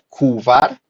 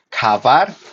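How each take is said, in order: First: A u vowel is inserted between k and v. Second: An a vowel is inserted between k and v. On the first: "No se pronuncia kuvar" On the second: "ni kavar"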